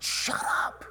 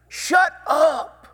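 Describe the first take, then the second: First: Hushed rebuke. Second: High, loud "Shut up", snapped at the beggar; shouted rebuke. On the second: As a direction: shout him down sharply. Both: Retold or imitated. Crowd silencing the blind beggar.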